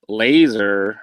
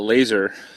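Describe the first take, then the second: First: It is said in a Doctor Evil voice. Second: It is said in his normal voice.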